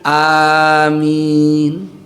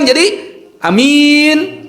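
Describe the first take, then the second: First: Both the first and second vowels are long. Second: Only the second vowel is long; first is short. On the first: It asks that the prayer be answered. "lafaz yang benar a-nya dipanjangkan, min-nya pun dipanjangkan" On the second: It names a trustworthy person. "kalau a-nya dibaca pendek, min-nya panjang"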